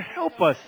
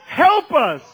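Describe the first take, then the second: First: Said in the usual way. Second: Loud, high cry for help; emphatic plea. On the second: Real, not acted. Preacher pleads to the Lord for Christians, loud and high. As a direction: cry it out, higher and louder. Plea repeated with rising force.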